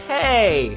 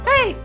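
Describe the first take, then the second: First: It is said in a plain, unsqueaky voice. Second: It is said in a high, squeaky voice. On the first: The speaker calls it wrong. "what was my voice for again?" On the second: The speaker calls it right. "I think I did that kind of voice, like kind of squeaky"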